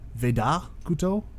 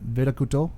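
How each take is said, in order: First: The vowel in the name is strongly sounded. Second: The vowel in the name is weak and reduced. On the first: The speaker calls it right. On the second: The speaker calls it wrong.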